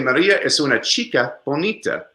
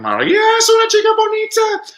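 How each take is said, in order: First: It is said as a plain statement. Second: It is said as a question throughout.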